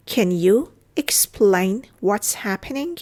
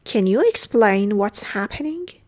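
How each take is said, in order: First: Slow, pausing between chunks; careful teaching pace; slow model repeat. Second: Said in the usual way. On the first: Shown as a demonstration. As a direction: break the question up for learners. Teacher repeats phrase slowly.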